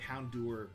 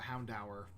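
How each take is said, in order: First: The ending is not said like 'dower'. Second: The ending is said like 'dower'. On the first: This is the version that feels more natural. "just sounded more natural" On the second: This is the intended version. "is probably the intended pronunciation"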